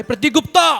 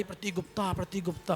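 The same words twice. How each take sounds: First: Calling out loud. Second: Far softer repeats of the name; mock echo. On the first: Retold or imitated. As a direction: shout the name high and loud. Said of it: "फिर मैंने आवाज़ लगाई". (ज़ोर से नाम पुकारना) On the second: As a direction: imitate the echo coming back faintly. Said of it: "आवाज़ आई". (नाम की हल्की गूँज)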